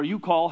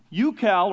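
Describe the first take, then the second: First: Ucal said yoo-KAWL, open aw vowel; second pronunciation. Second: Ucal said yoo-KAL, a as in cat; first pronunciation. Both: Shown as a demonstration. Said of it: "however you wanna say it".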